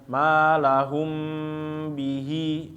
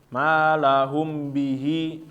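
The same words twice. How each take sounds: First: The nasal m sound is held before b. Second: The m sound moves straight into b. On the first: The speaker calls it right. "harus ditahan ya" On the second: The speaker calls it wrong. "membacanya langsung pindah. Ini yang keliru"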